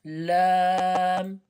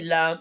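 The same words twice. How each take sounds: First: The vowel is held long and drawn out. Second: The vowel is short and clipped. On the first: The speaker calls it right. "You need to increase the length" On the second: The speaker calls it wrong. "Don't say lam, it's not lam"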